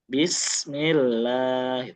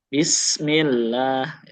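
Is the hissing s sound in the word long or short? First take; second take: long; long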